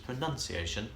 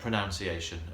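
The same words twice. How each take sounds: First: The second syllable sounds like 'nun'. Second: The second syllable sounds like 'noun'. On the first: The speaker calls it right. "but it's pronunciation, of course" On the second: The speaker calls it wrong. "a lot of people say"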